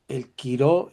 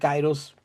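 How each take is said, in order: First: The word is said without a final s sound. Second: The word is said with a final s sound. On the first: "El quiro es el momento" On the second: "si usted dice kairos, está bien"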